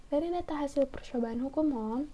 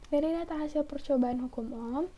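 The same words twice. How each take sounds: Both takes have the same delivery.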